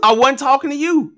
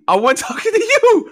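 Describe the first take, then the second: First: Said in the usual way. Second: Laughing through the words. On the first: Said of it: "I wasn't, I wasn't talking to you". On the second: Real, not acted. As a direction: crack up mid-line.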